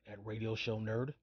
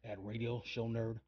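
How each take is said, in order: Both takes have the same delivery.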